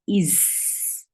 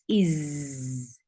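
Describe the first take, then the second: First: The final consonant is a mixed s-z sound. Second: The final consonant is a clear buzzing z. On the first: The speaker calls it wrong. "Some Z and S sound, mixed sound" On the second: The speaker calls it right. "No, it's is"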